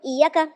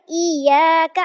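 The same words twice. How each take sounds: First: The long vowel is cut short. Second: The long vowel is drawn out. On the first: The speaker calls it wrong. "मैं हर्फ़ मद्दा ड्रॉप कर दूँ" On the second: The speaker calls it right. "अब मैंने यहाँ पे लंबा किया"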